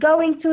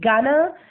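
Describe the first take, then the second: First: Both words are said fully and separately. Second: The words are run together into one reduced form.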